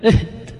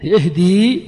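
First: "اهد" cut short after the dal; final ya dropped. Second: "اهدي" with a long, rising ee at the end; long final ya. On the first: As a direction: say "اهد" as ihdi with no long ee at the end. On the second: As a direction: draw out the ya of "اهدي", louder, as ihdee. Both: Shown as a demonstration. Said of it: "ثم حذفنا الياء".

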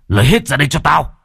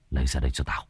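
First: Higher, louder raging yell; furious shout. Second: Softer, lower menacing hiss; "Lấy ra đây cho tao!" hissed low and quiet; low hissed threat. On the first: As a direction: bellow "Lấy hết ra đây cho tao!". (quát to giận dữ) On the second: (rít khẽ đầy đe dọa) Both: Acted. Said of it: "mà rít lên".

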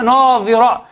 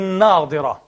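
First: ناظرة said with Za, an emphatic th as in "this"; ناظرة with a heavy buzzing Za, no stop in the middle; pronounced with Za. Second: ناظرة said with emphatic Dad, a heavy d; ناظرة with a firm stop consonant Dad in the middle; pronounced with Dad. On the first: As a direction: say ناظرة as naDHira, tongue between the teeth. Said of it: "بالضاد، أخت إيه؟ الطاء". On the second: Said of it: "آه، بالضاد". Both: Shown as a demonstration.

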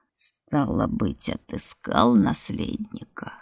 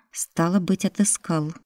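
First: Very low, slow hollow voice; booming from a pit. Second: Said in the usual way. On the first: Acted. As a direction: drone it up from deep in the ground. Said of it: "прогудел голос из ямы".

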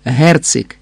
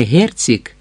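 First: "Герцик" with a hard ц, stress on the first syllable; hard pronunciation. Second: "Герцик" with soft palatal ц, stress on the last syllable; wrong soft pronunciation. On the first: Chevalier correcting the count, hard first-stressed "Герцик". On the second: Chevalier showing the count his wrong soft "Герцик". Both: Shown as a demonstration. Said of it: "а твердо Герцик".

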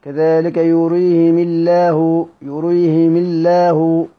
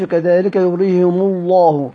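First: يريهم الله with "i" on the mim and a thin, light lam; slow recitation, يريهم الله as "yurihimi-llah" with light L; kasra, light lam. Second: يريهم الله with "u" on the mim and a heavy, dark lam; slow recitation, يريهم الله as "yurihimu-LLAH" with thick L; wrong reading with damma. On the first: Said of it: "فعلى القاعدة سترقق". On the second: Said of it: "ما يقولش". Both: Shown as a demonstration.

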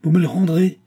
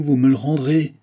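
First: Cried out high and loud, stress on me; incredulous cry. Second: Loud falling assertion, me stressed; insist, loud and final; angry insistence. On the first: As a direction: fling the question back, higher and louder. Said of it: "s'écria le commis". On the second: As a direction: clerk turns the question into a loud demand. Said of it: "tremblait d'émotion et de colère". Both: A narrator's reading.

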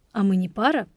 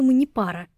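First: "А мы не пара?" as a question, pitched on "пара"; questioning echo. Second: "мы не пара" asserted, falling at the end; plain statement. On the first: Герман challenges Лора's claim, questioning lift on "пара". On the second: Лора recalls what she told Зоя, firm statement on "мы не пара". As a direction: state "мы не пара" as settled fact, lifted then falling. Her statement, echoed as question. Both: A narrator's reading.

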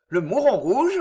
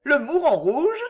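First: Said in the usual way. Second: High, rising curiosity; lightly acted, intrigued question; amused question. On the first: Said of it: "dit-il enfin". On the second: A narrator's reading. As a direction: echo the name in bright puzzlement. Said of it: "questionna Suzanne, riant gaiement".

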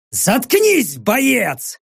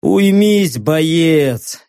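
First: Sharp high barked command; barked order. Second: Lazy order through a yawn. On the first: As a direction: snap the order at her. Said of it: "рявкнул я". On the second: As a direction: yawn the command. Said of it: "зевнул я". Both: Acted.

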